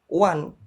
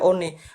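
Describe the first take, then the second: First: The word is said with English vowel sounds. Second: The word is said with its letters read literally. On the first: The speaker calls it right. "Vokal vokal apa penyebutannya dalam bahasa Inggris" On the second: The speaker calls it wrong. "Tidak dibaca one"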